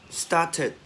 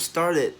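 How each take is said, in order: First: "started" as "stah-tid", with a clear t; started without r. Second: "started" as "star-did", r sounded. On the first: Teacher offering alternatives, "started" as r-less "stah-tid". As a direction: drop the r in "started", keep the t. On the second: Teacher offering the other version, "started" with a sounded r. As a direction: sound the r and soften the middle t of "started". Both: Shown as a demonstration. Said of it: "or started".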